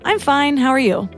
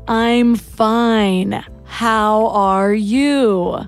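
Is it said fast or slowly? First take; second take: fast; slowly. First: It is said quickly, automatically. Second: It is said slowly.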